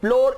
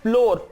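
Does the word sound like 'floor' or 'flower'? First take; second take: floor; floor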